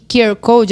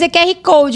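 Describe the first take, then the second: First: The letters are said with English pronunciation. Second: The letters are said with Portuguese pronunciation. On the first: It is the fancy, proper way of saying it. "se você quiser que a gente fale bonito" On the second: The speaker has not learned English. "Pra gente que ainda não conseguiu os patrocinadores do curso de inglês"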